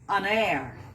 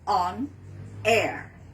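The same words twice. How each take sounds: First: The final sound runs into the next word. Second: The two words are said separately. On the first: The speaker calls it right. "So it has to be on air" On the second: The speaker calls it wrong. "not on air"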